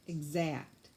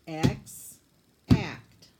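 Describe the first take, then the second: First: Said in the usual way. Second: "X" and "act" said apart, loud and punched; punching out each syllable of "Exact"; split into syllables. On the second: Shown as a demonstration. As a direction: break "Exact" into "X" then "act". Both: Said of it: "scoop it for me".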